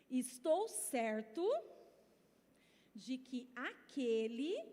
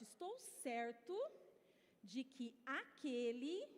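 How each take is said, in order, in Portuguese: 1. Ela é dita muito devagar. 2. Ela é dita em velocidade normal.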